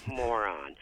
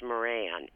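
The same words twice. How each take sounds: First: "moron" said slowly as MO-ron, stress on the first syllable; moron pronunciation. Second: "Moran" said as mo-RAN, the wrong way; Moran pronunciation. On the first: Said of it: "it's not pronounced Moran. It's moron". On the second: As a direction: say "Moran" with the stress on the second syllable, RAN. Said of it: "it's not pronounced Moran". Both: Shown as a demonstration.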